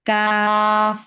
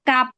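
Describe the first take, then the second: First: The word ends with an f sound. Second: The word ends with a p sound. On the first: The speaker calls it right. "ফায়ে ওই রকম হয়, কাফেও এরকম হবে" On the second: The speaker calls it wrong. "কেউ কিন্তু কাপ এরকম বলবো না, মানে পয়ের মতো হবে না আওয়াজ"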